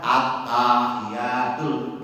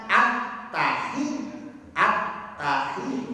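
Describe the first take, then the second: First: "At-tahiyatul" chanted slowly with the first vowel stretched long; wrong drawn-out reading. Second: "at-tahi" said slowly with short, even vowels; proper tajwid pronunciation; correct short reading. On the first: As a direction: sing "At-tahiyatul" with a long held opening a. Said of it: "salah kan?". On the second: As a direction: read "at-tahi" carefully, no stretched vowels. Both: Shown as a demonstration.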